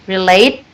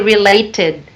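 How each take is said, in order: First: The final 'id' sound is left off. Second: The final 'id' sound is clearly pronounced. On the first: The speaker calls it wrong. "but you dropped the id sound" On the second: The speaker calls it right. "It should be related"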